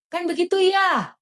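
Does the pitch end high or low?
high. The ending goes high, like Pak Hakim.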